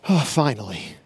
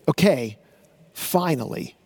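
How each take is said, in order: First: It sounds tired and relieved, like a sigh. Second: It sounds focused, introducing the last step.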